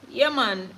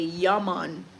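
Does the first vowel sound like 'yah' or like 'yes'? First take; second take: yes; yah. First: The first vowel sounds like the vowel in 'yes'. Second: The first vowel is an open 'ah' sound. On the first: This is how locals actually say the word. The speaker calls it right. "it's like saying yes" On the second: This is how outsiders imagine the word is said. The speaker calls it wrong. "a lot of foreigners think we say Yaman"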